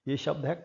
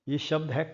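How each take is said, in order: No difference in how they are said.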